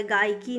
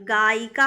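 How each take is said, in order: First: गायकी ending in kee; wrong form गायकी. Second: गायिका ending in kaa; correct form गायिका. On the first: Teacher rejects the form, kee ending on गायकी. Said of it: "नहीं". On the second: Teacher gives the feminine form, kaa ending on गायिका. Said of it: "गायिका होता है". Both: Shown as a demonstration.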